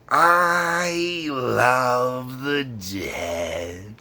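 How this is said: It is said in a dark, creepy tone. "so it's not that creepy"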